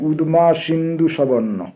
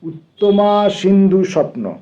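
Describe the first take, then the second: First: The name is said with Thai sounds. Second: The name is said with Bengali sounds. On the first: This is how the local people say the name. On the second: This is the original form and meaning of the name.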